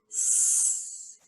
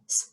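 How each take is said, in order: First: One single lengthened s sound is made. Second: Two short separate s sounds are made. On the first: The speaker calls it right. "you say S. It's a longer sound" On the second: The speaker calls it wrong. "instead of going S, S"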